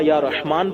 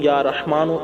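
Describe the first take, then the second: First: The name ends without a final vowel. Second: The name ends with a short 'u' vowel. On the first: The reciter stops after this word. "जहाँ रुकेंगे वहाँ या रहमान पढ़ेंगे" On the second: The reciter continues without stopping. "लगातार पढ़ेंगे तो या रहमानु"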